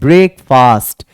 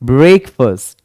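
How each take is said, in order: First: The second syllable sounds like 'fast'. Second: The second syllable sounds like 'fust'. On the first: The speaker calls it wrong. "बहुत सारे बंदे ब्रेकफास्ट बोलते हैं" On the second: The speaker calls it right. "वो फास्ट नहीं बल्कि फर्स्ट होता है"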